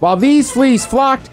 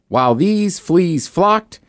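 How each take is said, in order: First: It is said quickly. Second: It is said at a normal pace.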